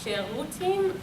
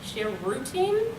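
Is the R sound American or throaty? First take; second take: throaty; American. First: The R is made deep in the throat. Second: The R is an American-style R. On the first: The speaker calls it right. "deep inside your throat" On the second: The speaker calls it wrong. "as an American would say"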